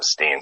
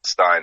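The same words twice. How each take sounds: First: "Steen" rhyming with "seen"; dad's pronunciation. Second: "Stein" rhyming with "mine"; mom's pronunciation. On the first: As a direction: say "Steen" with a long ee vowel. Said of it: "my dad says Steen". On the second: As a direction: say "Stein" with a long eye vowel. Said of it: "my mom says Stein". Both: Shown as a demonstration.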